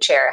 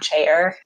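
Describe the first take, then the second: First: The word is said as one syllable. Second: The word is drawn out into two syllables. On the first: The speaker calls it right. "chair has one syllable" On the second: The speaker calls it wrong. "it's not chair"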